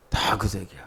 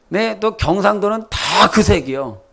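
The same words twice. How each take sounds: First: Softer, lower 다 그 색이요 muttered to himself; quiet aside. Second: Higher, leaning on 그 in 그 색이요; knowing emphasis. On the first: Preacher repeating the colour hint as a soft aside. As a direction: drop the voice on 그 색이요 like a private joke. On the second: Preacher hinting at Gyeongsang's party colour with emphasis. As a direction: stress 그 as a knowing wink to the congregation. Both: Real, not acted.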